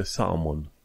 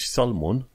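First: "salmon" with a silent L; correct British pronunciation. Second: "salmon" with the L sounded; wrong pronunciation. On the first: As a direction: say "salmon" as "samon", no L. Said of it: "se citește salmon". ("salmon" fără L, cu o mică pauză) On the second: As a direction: say "salmon" with an audible L. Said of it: "nu se citește salmon". ("salmon" cu L pronunțat, greșit) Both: Shown as a demonstration.

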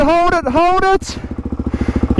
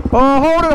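First: Slow, anxious hold it, hold it; drawn-out tense call. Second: High, urgent cry to hold on; urgent call as he wobbles; excited. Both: Real, not acted. Rider nearly falling.

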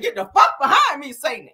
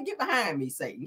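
First: Loud, high, hammed-up rebuke; mock testifying rebuke. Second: Softer, restrained demonstration; toned-down rebuke, quiet at the end; proper church rebuke. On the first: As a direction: blast "Get the fuck behind me", dropping on "Satan". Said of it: "You don't tell Satan to get the fuck behind you". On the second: Shown as a demonstration. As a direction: show the polite way, falling away on "Satan". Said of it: "Just say".

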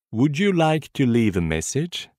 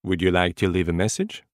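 First: Would you like to leave a message? drawn out slowly; slow repetition. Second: Said in the usual way. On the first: Shown as a demonstration. Teacher slowly repeating the phrase for learners to copy. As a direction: spell it out slowly for the class. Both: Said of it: "Écoutez et répétez après moi".

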